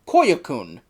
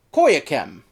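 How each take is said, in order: First: Koyakun, ending in a drawn -koon; correct pronunciation. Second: Koyakem, ending in -kem; mispronunciation. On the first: Reviewer corrects the group's name, ending -koon. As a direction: say Koyakun with a final oon, falling. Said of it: "and is pronounced". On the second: Reviewer shows the mistaken name, ending -kem. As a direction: say Koyakem with a final em instead of oon. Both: Shown as a demonstration.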